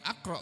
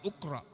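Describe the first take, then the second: First: The word begins with an 'a' vowel. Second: The word begins with a 'u' vowel. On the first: "bukan akra" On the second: "bukan ukra"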